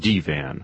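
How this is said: The word is said with a French pronunciation.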